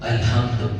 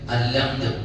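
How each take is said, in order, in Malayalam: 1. ഹ ശബ്ദം വ്യക്തമായി ഉച്ചരിക്കുന്നു. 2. ഹ ശബ്ദം പൂർണ്ണമായി ഒഴിവാക്കുന്നു. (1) "ഈ ഹ ഉച്ചരിക്കുന്നത് തെറ്റിപ്പോയ" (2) "ചിലവര് അല്ലംദു"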